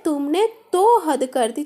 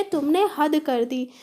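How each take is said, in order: First: तो in तुमने तो हद कर दी hit louder; stress on तो. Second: Said in the usual way. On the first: Shown as a demonstration. Teacher to students, showing extra force on तो. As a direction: punch the word तो, a touch louder. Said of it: "ज़्यादा जोर दे रहे हैं". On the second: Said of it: "ऐसे भी बोल सकते थे".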